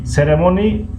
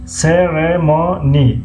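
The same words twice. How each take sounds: First: Said in the usual way. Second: سرمونی very slowly as "se - re - mo - ni"; syllable by syllable. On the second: Shown as a demonstration. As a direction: break سرمونی into four long, separate syllables. Teacher sounds word out by syllables. («سرمونی» هجا به هجا و خیلی آهسته)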